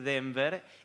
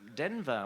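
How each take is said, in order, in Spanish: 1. Se dice con acento español. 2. Se dice con acento inglés. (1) "pero podemos decir Denver" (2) "se pronuncia Denver, un poco mejor"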